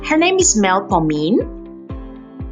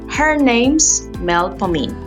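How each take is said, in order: First: The pitch rises at the end. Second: The pitch falls at the end. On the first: It is a question or a check. "If it were a rising tone, it would sound like a question or a check" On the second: It is stated as a plain fact. "That shows a falling tone. The pitch drops on pomine"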